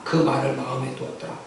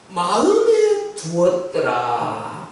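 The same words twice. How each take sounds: First: Said in the usual way. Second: "마음에 두었더라" stretched very slowly; drawn-out emphasis. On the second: Shown as a demonstration. Verse quoted with drawn-out emphasis. ("마음에 두었더라"를 길게 늘여서)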